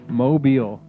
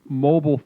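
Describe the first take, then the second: First: It does not sound like 'mobile phone'. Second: It sounds like the word in 'mobile phone'. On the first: The speaker calls it right. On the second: The speaker calls it wrong.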